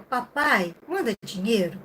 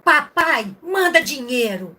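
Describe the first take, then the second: First: It is read in a gentle, sweet tone. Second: It is read in an angry, demanding tone.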